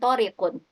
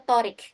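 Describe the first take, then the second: First: The name ends with an added -un ending. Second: The name ends on the bare consonant. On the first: The speaker calls it wrong. "bukan Torikun" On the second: The speaker calls it right. "sebut aja Torik"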